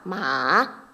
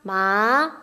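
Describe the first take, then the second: First: The pitch dips low, then rises. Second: The pitch rises from mid to high. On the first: "삼성" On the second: "이성"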